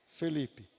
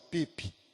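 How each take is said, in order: First: The name is said in full, three syllables. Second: The name is shortened to two syllables. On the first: The child has grown up. "Agora tá falando como?" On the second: A small child is saying his own name. "Ele fala assim, ó"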